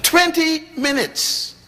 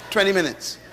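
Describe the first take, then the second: First: Stretched out high in disbelief; astonished. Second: Said through a chuckle; laughing. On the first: Preacher marveling to the congregation, drawn out and high. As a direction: marvel at how short it was. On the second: Preacher amused telling the congregation, laughing. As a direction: laugh it off in wonder. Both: Real, not acted.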